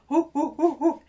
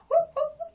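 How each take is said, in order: First: The whoops are lower in pitch. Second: The whoops are high in pitch.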